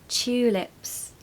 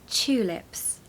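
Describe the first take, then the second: No difference in how they are said.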